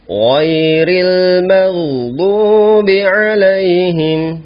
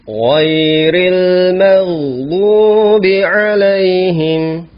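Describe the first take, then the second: Both takes have the same delivery.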